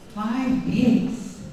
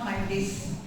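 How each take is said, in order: First: The word days ends with a z sound. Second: The word days ends with an s sound. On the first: The speaker calls it right. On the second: The speaker calls it wrong.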